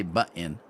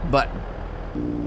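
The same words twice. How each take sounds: First: "button" said the standard way, with a clear t; correct button. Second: "Button" with the t swallowed, said "bu'n" with a glottal stop; imitating her button. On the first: Shown as a demonstration. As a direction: button with both t's sounded cleanly. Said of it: "She just can't say". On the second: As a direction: Button mimicked as "buh-in", no clear t. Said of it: "she says button".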